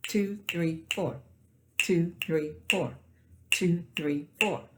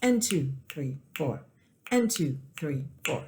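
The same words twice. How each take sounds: First: Syncopated count without one; leave off the one. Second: Syncopated count with an AND before two; more syncopated count. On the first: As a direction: count two three four with the one silent. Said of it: "let's leave off the one". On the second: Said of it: "add what we call an eighth note right before the two". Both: Shown as a demonstration.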